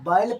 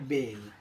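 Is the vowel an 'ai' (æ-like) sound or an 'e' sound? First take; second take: ai; e. First: The vowel is an open 'ai' sound. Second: The vowel is a closer 'e' sound. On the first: The speaker calls it wrong. "इसको बैल पढ़ेंगे तो गलत हो जाएगा" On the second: The speaker calls it right. "इसको हमें पढ़ना है बेल"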